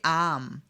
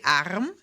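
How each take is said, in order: First: The R sound is almost silent. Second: The R sound is clearly pronounced. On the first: This is how most people usually say it. "So it becomes almost silent" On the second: This is a possible but less usual pronunciation. "you could say arm"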